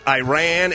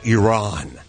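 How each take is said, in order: First: It is said the older, everyday way. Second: It is said the newer, affected way. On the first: This is how people always said it. The speaker calls it right. "we called it Iran" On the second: This is the newer correction people push. The speaker calls it wrong. "It's now Iran"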